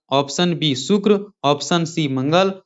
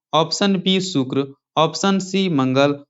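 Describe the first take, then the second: Both takes have the same delivery.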